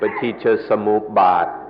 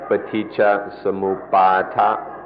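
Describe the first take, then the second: First: The word is said in a shorter, clipped form. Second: The word is said in a longer, fuller form. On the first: "In Thai, the pronunciation is a little shorter" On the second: "But in the Pali, it's more like"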